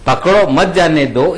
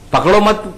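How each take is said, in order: First: पकड़ो set apart, "मत जाने दो" run together; shifted phrase break. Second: "पकड़ो मत" as one unit, stopping after मत; split phrasing. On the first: Panelist showing how words get twisted, break placed after पकड़ो. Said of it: "इस तरह से तोड़ा मरोड़ा गया". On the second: Panelist showing how a phrase splits in two, "पकड़ो मत" kept together. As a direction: run पकड़ो straight into मत, then halt. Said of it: "अगर दो हिस्सों में आप बोलोगे". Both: Shown as a demonstration.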